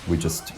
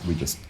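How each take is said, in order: The two takes are said the same way.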